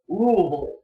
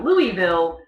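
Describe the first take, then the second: First: It uses the local pronunciation of the name. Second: It uses the outsider pronunciation of the name. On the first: The speaker is a native of the state. "people from Louisville pronounce it Louisville" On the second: The speaker is not from the state. "they are not from Kentucky"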